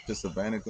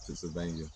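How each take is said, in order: First: Pennsylvania garbled as "Pennsylvanica"; mispronounced Pennsylvania. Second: Said in the usual way. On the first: Real, not acted. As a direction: slip an extra "-ica" ending onto Pennsylvania. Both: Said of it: "cartoons fucking me up".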